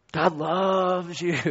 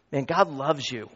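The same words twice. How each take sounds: First: Slow, stretched, stress on loves; emphasized. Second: Said in the usual way. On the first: Shown as a demonstration. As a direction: lean hard on "loves", drawn out slowly. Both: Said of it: "Really emphasize it".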